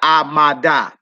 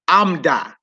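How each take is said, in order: First: A full vowel is kept in the middle. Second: The middle vowel is dropped out. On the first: The speaker calls it wrong. "not Amada" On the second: The speaker calls it right. "You got Amda"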